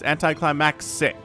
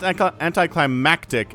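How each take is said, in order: First: The ending is pronounced like 'maxic'. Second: The ending is pronounced like 'mactic'. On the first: The speaker calls it right. "it is anticlimaxic" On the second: The speaker calls it wrong. "Not anticlimactic"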